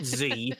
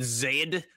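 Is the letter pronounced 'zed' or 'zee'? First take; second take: zee; zed. First: The letter is pronounced as zee. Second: The letter is pronounced as zed. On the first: This is the way from across the border. The speaker calls it wrong. "not Z" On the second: This is the Canadian way of saying it. The speaker calls it right. "on this side of the line, we pronounce it Z"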